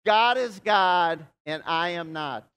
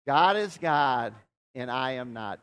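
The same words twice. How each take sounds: First: God is God and I am not, each word slow and loud; slow emphatic declaration. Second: God is God, slow and a touch louder, then and I am not falling away; repeat after me. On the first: Pastor leading the congregation to repeat, slow and loud. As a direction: lead the room in a slow loud creed. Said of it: "repeat that after me". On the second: Pastor has everyone repeat after a breath, slower. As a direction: let it settle after a breath. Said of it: "repeat after me". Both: Shown as a demonstration.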